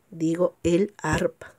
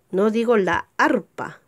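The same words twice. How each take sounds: First: El arpa, slow and clear; correct article. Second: La arpa, the wrong form; wrong article. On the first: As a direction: say el arpa, stressing el. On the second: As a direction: say la arpa with la before arpa. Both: Shown as a demonstration.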